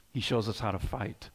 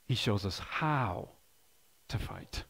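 First: Said in the usual way. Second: Slow, fading down to a whisper on to fight; slow emphatic repeat. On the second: Shown as a demonstration. Pastor repeating the point to his congregation, slow and fading. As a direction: let it sink in, trailing off into a whisper.

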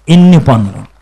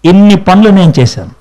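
First: ఇన్ని stressed, much lower and slower; slow emphatic echo. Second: Said in the usual way. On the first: Shown as a demonstration. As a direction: lean on ఇన్ని, drop the voice low. (ఇన్ని పై ఒత్తిడి, తక్కువ స్వరంలో)

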